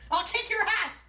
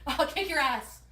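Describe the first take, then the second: First: Put-on high, slurred drunk threat; belligerent drunk. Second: Said in the usual way. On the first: Repeated clip line.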